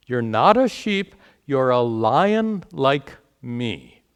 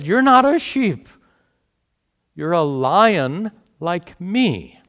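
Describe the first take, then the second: First: Repeating the lion. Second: A lion's call, much higher and louder, slowing down at the end; proud lion. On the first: Retold or imitated. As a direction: quote the lion back to the students with a lighter touch. Teacher repeats the lion's line. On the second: Acted. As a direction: announce it like a bold lion who has just found his brother. Passerby lion declares to confused lion.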